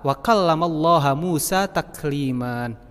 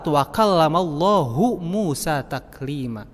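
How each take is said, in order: First: The word Allah ends with an 'a' vowel. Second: The word Allah ends with a 'u' vowel. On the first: Musa spoke directly to God. The speaker calls it wrong. "lafaz Allahnya itu hanya fathah ... Itu salah" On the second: God spoke directly to Musa. The speaker calls it right. "Yang betulnya ... Allahnya itu hanya dhammah"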